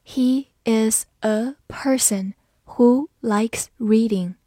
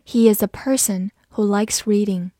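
First: Very slow, careful reading. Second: Said in the usual way. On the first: Shown as a demonstration. Teacher reading the sentence slowly for students. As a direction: drag each word out for learners. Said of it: "好，慢慢来读。". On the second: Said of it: "慢慢来读".

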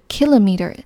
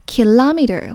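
First: Kilometer as KIL-o-meter; kilometer British style, punch the KIL; British stress. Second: Kilometer as ki-LOM-eter; kilometer American style, punch the LOM; American stress. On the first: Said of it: "英式发音重音在K前面". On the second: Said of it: "Kilometer是美式发音". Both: Shown as a demonstration.

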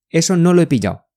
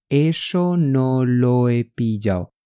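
First: Quick, run-together delivery; brisk native-speed model phrase; said quickly. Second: Slow, drawn-out teaching pace; slow demonstration. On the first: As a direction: say it fast with "lo he" linked. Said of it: "你要说快一点啊". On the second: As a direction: spell it out slowly for learners. Slow syllable-by-syllable model. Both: Shown as a demonstration.

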